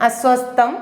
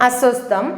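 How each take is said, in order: Both takes have the same delivery.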